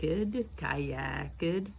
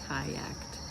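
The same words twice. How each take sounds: First: The -ed ending forms an extra syllable. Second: The -ed ending is a T, no extra syllable. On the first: The speaker calls it wrong. "You're going to be tempted to say kicked, kayaked. Don't" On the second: The speaker calls it right. "make it just that one syllable"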